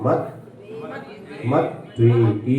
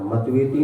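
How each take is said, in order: First: The t is held and doubled before v. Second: The t is said once, without doubling. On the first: The speaker calls it right. "आधा ता दोनों तरफ पढ़ना" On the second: The speaker calls it wrong. "मतवेति नहीं"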